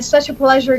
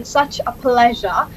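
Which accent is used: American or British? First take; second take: American; British. First: It is spoken in an American accent. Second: It is spoken in a British accent. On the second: "starting with the British accent first"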